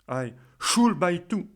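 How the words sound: The stress is on the word should. Questioning why there is any obligation to buy. "je vais insister sur le mot should"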